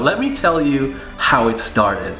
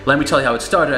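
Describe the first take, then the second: First: It is said with strong, deliberate emphasis. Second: It is said plainly, with little emphasis. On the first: The speaker calls it right. "I deliberate how it started. Like I literally smash the inflection where I want it" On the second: The speaker calls it wrong. "I don't just say"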